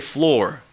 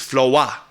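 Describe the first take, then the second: First: The final r is pronounced, country style. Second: The final r is dropped, R and B style.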